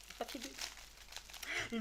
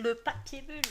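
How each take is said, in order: First: Souffle lent et rêveur, presque sans voix; chuchoté. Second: Redit plus fort et plus haut, amusé; répété plus fort. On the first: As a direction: murmurer le mot en le savourant. Savoure le mot papier bulle. (murmure lent et émerveillé) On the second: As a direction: lancer le mot à voix haute, ravie. Répète le mot papier bulle. (exclamation amusée à voix haute) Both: Pretend.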